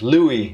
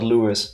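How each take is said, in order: First: The name ends without an s sound. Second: The name ends with an s sound. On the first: The speaker calls it right. "Pronounced Louis" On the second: The speaker calls it wrong. "not Lewis"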